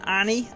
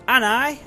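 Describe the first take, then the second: First: The name ends with an 'ee' sound. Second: The name ends with an 'eye' sound. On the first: The speaker calls it right. "Annie should be correct" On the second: The speaker calls it wrong. "Anai is wrong"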